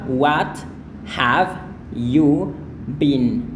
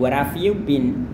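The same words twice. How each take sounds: First: The h sound in have is clearly pronounced. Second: The h sound in have is dropped. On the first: "Jadi cara Anda melafalkan ini adalah" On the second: "kadang hanya ini mati"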